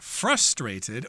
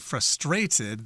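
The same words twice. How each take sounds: First: The stress is on the first syllable. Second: The stress is on the second syllable. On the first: "in American English, we pronounce this as being frustrated" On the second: "They put the accent on the second syllable in that word"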